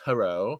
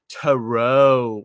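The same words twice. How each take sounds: First: The last syllable is said at normal length. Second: The last syllable is stretched out very long. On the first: "it's not just "to-row,"" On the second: "like five, you know, minutes later, you're still saying "row.""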